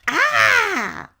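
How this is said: It is shouted like a crazy samurai.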